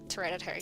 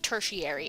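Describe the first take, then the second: First: It sounds like 'hereditary' with a T sound. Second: It is said as 'tershary' with a sh sound. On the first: The speaker calls it wrong. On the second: The speaker calls it right.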